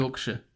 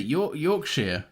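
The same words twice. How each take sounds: First: Yorkshire tried softly as "york-shuh"; quieter, tentative "york-shuh" for Yorkshire; unfamiliar pronunciation. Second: Yorkshire drawn out as "york-sheer"; Yorkshire, slow, with a full last vowel; habitual pronunciation. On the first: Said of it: "that sounds weird to me". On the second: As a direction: slowly say Yorkshire with a long "sheer". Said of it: "Yorkshire sounds right". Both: Shown as a demonstration.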